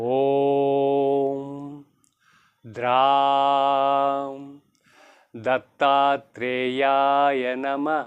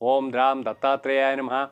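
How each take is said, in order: First: The phrase is recited slowly and deliberately. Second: The phrase is recited very quickly. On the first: It is said so the listener can follow. "నేను నిదానంగా మీకు అర్థమవ్వాలని చెప్పాను" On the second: It is said as quickly as one can manage. "ఇలా కూడా మీ నాలుగు తిరిగినంత వరకు చక్కగా చాలా త్వరితగతిన చెప్పుకోండి"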